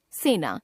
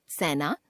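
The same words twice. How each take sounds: First: Said in the usual way. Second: सेना as "saina" with open ai; mispronounced e. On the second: Shown as a demonstration. Teacher showing a common error, सेना with ai for e. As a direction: put "ai" for "e" in सेना. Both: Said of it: "ए, ऐ संबंधी अशुद्धियां".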